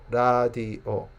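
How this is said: It is said with a Korean accent. "Koreans say radio"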